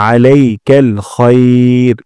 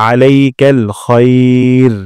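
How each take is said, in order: The two takes are said the same way.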